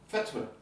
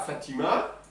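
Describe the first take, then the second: First: The short i after the t is dropped. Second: The short i after the t is pronounced. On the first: The speaker calls it right. "il bouffe les voyelles complètement" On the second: The speaker calls it wrong. "c'est pas Fatima"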